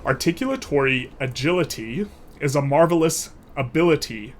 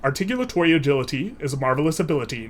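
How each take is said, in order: First: The phrase is spoken slowly and deliberately. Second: The phrase is spoken at a moderate speed. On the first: "I'll do it slowly" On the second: "So a little bit faster"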